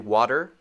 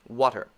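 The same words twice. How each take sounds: First: The middle consonant is a quick D-like sound. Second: The middle consonant is a T sound.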